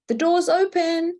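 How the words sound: It sounds welcoming, like an invitation to enter.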